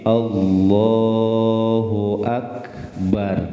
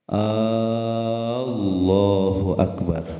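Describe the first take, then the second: First: The opening vowel of Allah is kept short. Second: The opening vowel of Allah is drawn out long. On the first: It is a plain statement that God is great. The speaker calls it right. "jadi hamzahnya pendek" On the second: It turns the phrase into a question of doubt. The speaker calls it wrong. "Hamzah lapan Allahnya gak boleh dipanjangkan"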